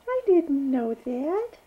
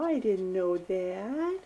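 First: Higher, louder playful mock surprise. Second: Said in the usual way. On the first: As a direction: pretend to be amazed for the baby. Repeated line to baby.

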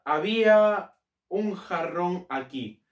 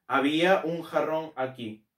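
First: Half-speed, drawn-out words; slow dictation. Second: Said in the usual way. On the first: Shown as a demonstration. Teacher composing an example sentence for students, slow dictation. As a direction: stretch each word as if writing it.

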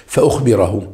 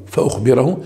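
First: Said in the usual way. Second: فأخبره with the tune rising at the end; rising repeat. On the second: Shown as a demonstration. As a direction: repeat فأخبره, lifting the last syllable like a prompt. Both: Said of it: "هذا فعل مضارع منصوب".

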